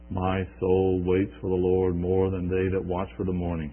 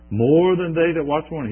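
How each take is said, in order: First: Said in the usual way. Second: "More than they that watch for the morning" repeated higher and louder, "more" hit hard; repeated for emphasis. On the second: Shown as a demonstration. Preacher repeating the psalm line for emphasis, raised and loud. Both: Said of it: "He repeats it for emphasis".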